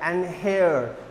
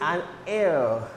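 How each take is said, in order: First: The word starts with an h sound. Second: The word starts with a vowel sound. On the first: The speaker calls it wrong. "You will not pronounce the given word like and here" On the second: The speaker calls it right. "but the pronunciation is an air"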